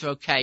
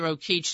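First: The name has its older European pronunciation. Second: The name has its modern American company pronunciation. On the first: This is how it was said in Europe. "but in Europe it was Rokeach" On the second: This is how the company says it today. "I think they pronounce it Rokeach, the company now"

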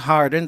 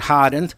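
First: It is said in a general accent. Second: It is said in a Boston accent.

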